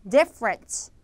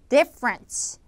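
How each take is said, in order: Both takes have the same delivery.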